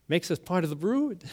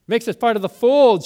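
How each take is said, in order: First: Said in the usual way. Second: Laugh, then fold said louder and higher; laughing correction. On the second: Real, not acted. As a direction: catch the slip with a laugh and fix it to fold.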